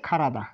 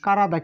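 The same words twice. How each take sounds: First: খারাদা with an aspirated KH; exceptional pronunciation. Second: কারাদা with a plain unaspirated K; regular pronunciation. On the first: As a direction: open খারাদা with a puff of air on "kha". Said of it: "এই উচ্চারণটা একটু ব্যতিক্রম". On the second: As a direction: start কারাদা on a hard "ka", no puff of air. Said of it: "এই উচ্চারণটা হবে কারা". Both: Shown as a demonstration.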